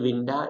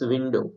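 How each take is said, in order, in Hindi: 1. यह शब्द 'ah' ध्वनि से समाप्त होता है। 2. यह शब्द 'oh' ध्वनि से समाप्त होता है। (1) "hier it's not actually winda" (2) "it's window"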